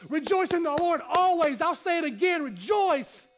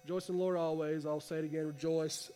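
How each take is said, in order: First: It is said in an excited, fired-up tone. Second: It is said in a flat, dull tone.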